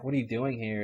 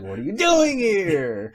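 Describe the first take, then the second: First: It is said in a calm, ordinary voice. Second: It is screamed, imitating Jack.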